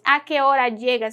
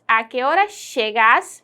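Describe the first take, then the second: First: It has a Peninsular Spanish accent. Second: It has a Rioplatense accent with a 'sh' sound. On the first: "Seria uma pronúncia espanhola" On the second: "Com a variante rioplatense eu pronuncio"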